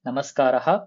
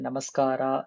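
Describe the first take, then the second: First: The word ends with a breathy h after a. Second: The word ends on a plain a vowel. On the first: The speaker calls it right. "கரெக்ட்டா அந்த விசர்கா வரைக்கும் pronounce பண்ணணும்" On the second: The speaker calls it wrong. "நமஸ்கார் இல்ல நமஸ்காரா அது மாரி தேவையில்ல"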